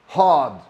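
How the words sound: The R sound at the end is dropped. "So the R doesn't get pronounced"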